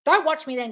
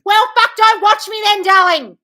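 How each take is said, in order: First: Said in the usual way. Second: Loud, high furious shout; real yelling. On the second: Real, not acted. Host telling triggered viewer to leave, furious yell. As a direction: blast it at them.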